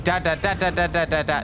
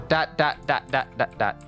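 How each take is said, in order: First: The dots are said very quickly in rapid succession. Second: The dots are said at a steady moderate rhythm. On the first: The clicking is too quick to work. The speaker calls it wrong. "If you click on it too fast" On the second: The clicking is at the pace that works. The speaker calls it right. "You gotta go"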